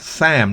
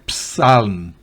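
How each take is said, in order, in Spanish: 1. La palabra empieza con sonido S. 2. La palabra empieza con sonido P. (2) "no es psalm"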